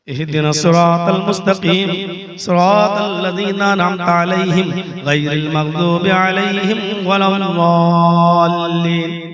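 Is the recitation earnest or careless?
earnest. It is recited earnestly, like a real plea.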